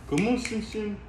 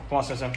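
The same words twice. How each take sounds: First: Much higher, sing-song call to the cat; high coaxing call. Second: Said in the usual way. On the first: Real, not acted. Owner coaxing his cat out of the carrier, high sing-song call. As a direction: coax the cat out in a high pet voice.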